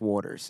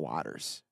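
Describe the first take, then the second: First: It sounds just like the word water plus s. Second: It sounds different from the word water plus s. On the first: This is how the name is actually said. The speaker calls it right. "pronounced Waters" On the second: This is how the name might be expected to sound. The speaker calls it wrong. "and not Waters"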